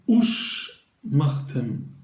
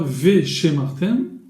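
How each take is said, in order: First: The word begins with an 'oo' sound. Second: The word begins with a 've' sound. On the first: The speaker calls it right. "donc on dira ush martem" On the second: The speaker calls it wrong. "on ne dit pas ve shemartem, ça sonne très mal et grammaticalement c'est faux"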